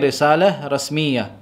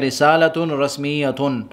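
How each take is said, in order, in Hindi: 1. हर शब्द बिना अंतिम स्वर के, यानी बिना किसी अंत के आता है। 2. हर शब्द के अंत में पूरा -tun कारक-प्रत्यय लगता है। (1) "बल्कि हम कहेंगे ... आखिरी जो हरफ होगा उस पर हम हरकत नहीं" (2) "मैं ये नहीं कहूँगा कि"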